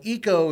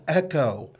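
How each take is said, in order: First: The word begins with a long "eek" sound. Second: The word begins with a short "eck" sound. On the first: "Eco is sort of like economical" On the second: "No, it's Echo"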